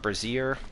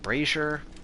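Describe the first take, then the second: First: It is said like the word brassiere. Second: It is said as bray-zher, first syllable stressed. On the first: The speaker calls it wrong. "not brazier" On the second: The speaker calls it right. "is brazier"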